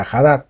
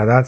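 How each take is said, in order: First: Hadad with an audible H, like Spanish J; pronounced H. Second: Hadad with the H left silent. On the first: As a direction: voice the H at the start of Hadad. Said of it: "Si la pronunciamos". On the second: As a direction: start Hadad straight on the A. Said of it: "Si la H es muda". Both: Shown as a demonstration.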